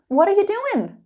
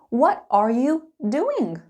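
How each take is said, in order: First: It is said quickly with the words run together. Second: It is said slowly with every word clear. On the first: "Let's speed it up" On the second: "Slow and clear"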